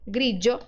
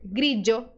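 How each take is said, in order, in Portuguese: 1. A consoante do meio é o som de dj. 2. A consoante do meio é o som de dj.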